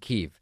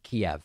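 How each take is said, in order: First: It uses a newer pronunciation closer to Ukrainian. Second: It uses the older anglicized English pronunciation. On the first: This matches how the name is said in Ukraine. "it's a new pronunciation" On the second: This follows the old English spelling. "it's pronounced Kiev"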